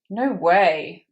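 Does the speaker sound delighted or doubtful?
doubtful. It sounds doubtful and disbelieving. The news seems impossible to believe. "where you really struggle to believe it... that's not possible"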